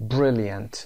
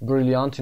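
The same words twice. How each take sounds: First: "Brilliant" as BRIL-yənt; correct schwa pronunciation. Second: "Brilliant" wrongly as bril-i-AHNT; mispronounced full vowel. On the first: Teacher corrects the mistake for learners, "Brilliant" as BRIL-yənt. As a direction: say "Brilliant" with a reduced "yənt" ending. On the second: Teacher demonstrates the mistake to avoid, "Brilliant" as bril-i-AHNT. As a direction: say "Brilliant" with an open "ahnt" instead of schwa. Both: Shown as a demonstration. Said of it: "Brilliant اینو نمیخونیم".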